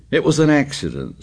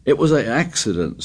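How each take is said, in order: First: Stubbornly. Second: Suddenly. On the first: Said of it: "said Piggy stubbornly". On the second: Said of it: "said Piggy suddenly". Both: A narrator's reading.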